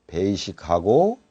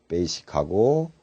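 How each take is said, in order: The two takes are said the same way.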